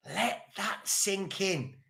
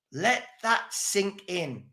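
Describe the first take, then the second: First: "Let that sink in." dropped much softer and slow; softer, slower echo. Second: Quiet, slow emphasis. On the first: To the viewers, a much softer slow repeat. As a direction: let it land in a hush. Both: Shown as a demonstration. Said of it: "repeated for emphasis".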